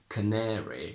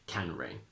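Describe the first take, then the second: First: The stressed middle vowel is said in full. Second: The stressed middle vowel is reduced or dropped. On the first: The speaker calls it right. "We say canary" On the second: The speaker calls it wrong. "you can't say canary"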